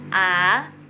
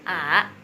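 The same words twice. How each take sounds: First: The vowel is said with the second tone. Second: The vowel is said with the third tone. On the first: "nomor dua A" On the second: "nomor tiga A"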